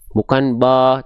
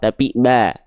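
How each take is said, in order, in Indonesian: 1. Vokal a terdengar tebal, mulut cukup terbuka. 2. Vokal a terdengar tipis, bibir sedikit melebar. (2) "buka mulut, sedikit senyum"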